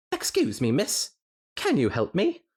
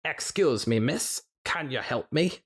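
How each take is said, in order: First: Higher, hammed-up Scottish; attempted Scottish accent. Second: A touch higher, lightly Scottish; second Scottish try. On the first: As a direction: put on a shaky Scottish lilt. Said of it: "That was my best tenant, eh?". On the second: Acted. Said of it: "maybe I could do a Scottish one better".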